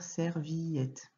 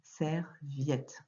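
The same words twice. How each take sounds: First: Serviette as ser-vi-ette, three syllables; wrong reading. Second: Serviette in two syllables, ser-viette; correct reading. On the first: Teacher showing a child the wrong reading ser-vi-ette. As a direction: sound out serviette with vi and ette apart. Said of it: "On va pas dire serviette". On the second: Teacher showing a child the spoken form ser-viette. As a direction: glide vi into ette, sɛʀvjɛt. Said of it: "On va pas dire serviette, mais". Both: Shown as a demonstration.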